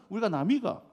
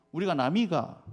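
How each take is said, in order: First: Another clumsy Gyeongsang dialect try, ending on a rise; Gyeongsang dialect again. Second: Clumsy Gyeongsang dialect slogan. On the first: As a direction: give the Gyeongsang slogan another go. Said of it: "진짜 서투르네". (다시 해보는 서투른 경상도 사투리) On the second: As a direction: try the Gyeongsang accent, not quite right. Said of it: "경상도 지역에서 뭐라고 외치는 줄". (서투른 경상도 사투리) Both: Retold or imitated.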